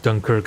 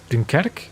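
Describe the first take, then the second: First: The name is said with an English pronunciation. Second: The name is said with a French pronunciation. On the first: "Dunkirk is actually British pronunciation" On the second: "Is that French?"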